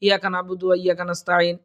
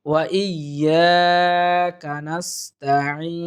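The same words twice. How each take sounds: First: Fast, run-together, no stretches; hurried recitation. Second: Very slow, long held syllables; stretched tajweed recitation. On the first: Teacher showing how we misread in haste, rushed recitation. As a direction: rush straight through the whole verse. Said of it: "এরকম দ্রুত পড়ে তাড়াহুড়া করে". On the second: Teacher modelling the whole phrase, slow careful tajweed. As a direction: draw out "yaa" and the final "eeen". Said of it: "তিন আলিফ পরিমাণ টেনে". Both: Shown as a demonstration.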